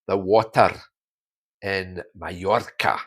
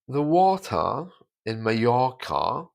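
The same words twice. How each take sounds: First: Scottish accent with strongly sounded R sounds. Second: Standard southern English accent with silent R sounds. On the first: "if we think about the Scottish accent, that becomes" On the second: "the letter R is taken away. You don't hear it at all in received pronunciation"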